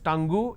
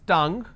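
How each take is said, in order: First: It ends with an added vowel sound. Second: It ends cleanly on the ng sound. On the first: The speaker calls it wrong. "Please don't pronounce that as tangu" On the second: The speaker calls it right. "It's tongue"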